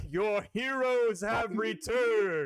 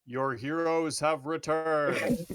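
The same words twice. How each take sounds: First: Loud, slow booming proclamation; booming thunder and wind. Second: Booming thunder and wind. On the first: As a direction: boom it across the crowd. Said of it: "a booming voice echoes through the crowd". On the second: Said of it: "cast Thaumaturgy and go". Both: Acted.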